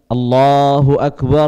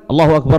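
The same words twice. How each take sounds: First: It is said slowly, with a pause after. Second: It is said quickly, running straight on. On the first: The speaker calls it right. "azannya tidak terburu-buru, ada jeda ... itu sudah dilantunkan" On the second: The speaker calls it wrong. "jangan tidak dilantunkan sama sekali ... kan nggak enak didengar"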